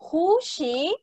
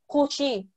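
First: The question is said with a clear melody. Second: The question is said with flat pitch. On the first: The speaker calls it right. "entonen bien" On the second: The speaker calls it wrong. "Yo no digo"

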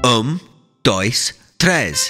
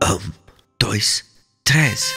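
First: It is counted a little louder. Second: It is counted very quietly.

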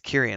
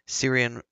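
First: The name begins with a hard K sound. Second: The name begins with a soft S sound. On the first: The speaker calls it right. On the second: The speaker calls it wrong.

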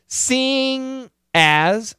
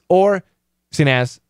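First: The word ends with a full 'ing' sound. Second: The word ends with a short 'un' sound. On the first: "Ing has the ing pronunciation, ng" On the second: "much faster with the schwa"

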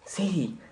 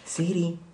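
First: The name is said in a natural voice. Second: The same.

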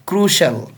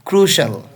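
First: The word is said with two syllables. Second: The word is said with two syllables.

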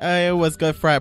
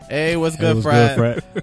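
First: It is said in the speaker's normal voice. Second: It is said in an exaggerated deep voice.

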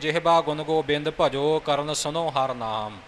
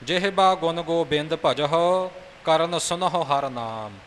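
First: The h sounds are dropped, ending in o. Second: The h sounds are fully pronounced, ending in hu. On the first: The speaker calls it wrong. "ਇਹ ਉਚਾਰਨ ਅਸ਼ੁੱਧ ਹੈ" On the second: The speaker calls it right. "ਹਾਹੇ ਨੂੰ ਔਂਕੜ ਲਾ ਕੇ ਇਸ ਦਾ ਉਚਾਰਨ ਪੂਰਨ ਤੌਰ 'ਤੇ ਕਰਨਾ ਹੈ"

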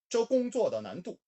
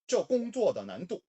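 No difference in how they are said.

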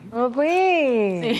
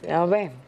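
First: It is said at a high pitch. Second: It is said at a low pitch.

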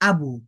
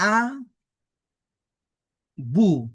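First: The two syllables are joined into one word. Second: The two syllables are said separately with a break. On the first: "এবার আমরা একসাথে উচ্চারণ করব।" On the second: "এই দুটি বর্ণের উচ্চারণ করলাম ভেঙ্গে ভেঙ্গে"

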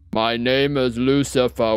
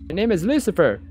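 First: It is said in a deep voice. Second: It is said in a natural voice.

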